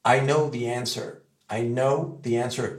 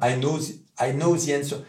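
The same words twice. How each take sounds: First: The in I know the answer said with a real th; the in I know the answer with the tongue between the teeth; correct th. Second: The in I know the answer said as ze; the in I know the answer said with a French z; wrong z for th. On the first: Teacher modelling the English th. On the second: Teacher mimicking the French ze error. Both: Shown as a demonstration. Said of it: "Et non pas".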